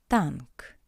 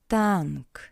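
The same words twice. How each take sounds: No difference in how they are said.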